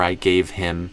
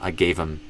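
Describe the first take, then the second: First: The word him keeps its h sound. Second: The word him is reduced to im. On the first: "you could say them distinct" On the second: "we reduce it and it becomes im"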